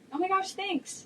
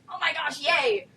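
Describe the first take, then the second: First: It is said in a calm, muted way. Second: It is said in an excited, enthusiastic way.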